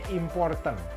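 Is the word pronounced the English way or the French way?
English. It is pronounced with English sounds. "di bahasa Inggris dibacanya important"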